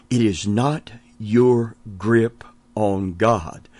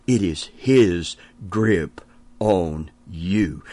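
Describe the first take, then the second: First: Slow, "your" held long; slow emphatic contrast; stress on your. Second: Slow, lower, "his" held long; slow emphatic contrast; stress on his. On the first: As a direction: lean on "your". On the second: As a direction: drag out "his". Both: Shown as a demonstration. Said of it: "I want to say that again".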